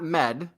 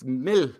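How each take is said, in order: First: The word ends in a hard d sound. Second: The word ends in a soft l-like sound. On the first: The speaker calls it wrong. "it's not med" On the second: The speaker calls it right. "It's mil. But the l that we hear as an L is actually a th that you don't fully pronounce"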